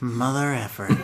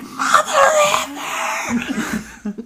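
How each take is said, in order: First: It is said quietly. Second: It is said loudly.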